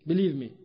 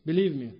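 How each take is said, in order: Both takes have the same delivery.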